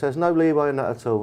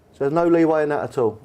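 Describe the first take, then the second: First: Said in the usual way. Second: Rising, slightly higher ask; hopeful question. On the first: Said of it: "chairman are brilliant at this". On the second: Retold or imitated. Young player asking the chairman for more money, higher and hopeful. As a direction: push gently for a bit more. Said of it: "And I said to him".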